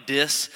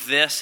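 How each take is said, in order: First: "dis" with a hard d for th; stopped-up "th". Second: Said in the usual way. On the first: Shown as a demonstration. Preacher showing his congested speech, "dis" with a d sound. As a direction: say "dis", the th blocked into a d. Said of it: "it's coming out like". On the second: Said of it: "I'm saying the word".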